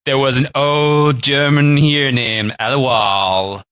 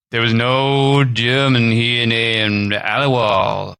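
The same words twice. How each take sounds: First: Put-on slow old man voice, more clearly spoken; a slow old man, now articulate; slow old man retake, articulated. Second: Slow, lightly voiced old man; a hint of an old storyteller, slow; slow mild old man voice. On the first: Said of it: "I'll start again". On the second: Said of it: "I'm just gonna do an old man voice".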